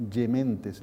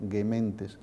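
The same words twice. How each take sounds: First: "Gementes" with a soft Y-like G, yeh-MEN-tes; church Latin. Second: "Gementes" with a hard G like in "gato"; hard-G "Gementes", said softer; classical Latin. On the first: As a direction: palatal "Gementes", said softer. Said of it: "La G ahora se pronuncia Y". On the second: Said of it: "El sonido G es gagegigogu". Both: Shown as a demonstration.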